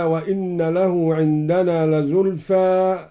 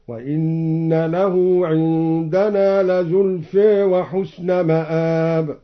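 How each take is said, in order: First: Said in the usual way. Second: "لزلفى" ending between aa and ee, lazulfe; slow chant with "لزلفى" narrowed toward e; tilted final vowel. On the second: Shown as a demonstration. Reciter showing Al-Duri, "لزلفى" tilted to lazulfe. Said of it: "قلل زلفى".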